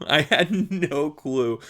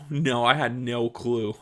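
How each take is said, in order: First: Chuckling through it slowly; laughing. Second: Said in the usual way. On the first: Real, not acted. Recalling hard labor to listener, slow laughing repeat. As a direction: laugh at your own past naivety.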